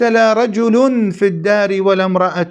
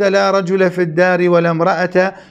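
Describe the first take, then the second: First: The nouns end with an -un ending. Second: The nouns end with a short -a vowel. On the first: The word la is inactive and the nouns are subjects. "برفع رجل وامرأة على إلغائها" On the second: The word la governs the nouns as its subject. "بفتح رجل وامرأة على إعمال لا"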